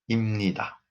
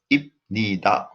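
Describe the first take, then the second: First: The consonant before 'ni' is an m. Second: The consonant before 'ni' is a b. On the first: The speaker calls it right. "We pronounce 입니다" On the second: The speaker calls it wrong. "wrong. We don't pronounce like that"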